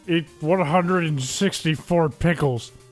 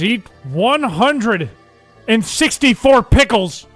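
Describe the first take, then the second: First: It is read in a plain, ordinary voice. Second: It is read in a special put-on voice. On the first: The speaker calls it wrong. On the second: The speaker calls it right.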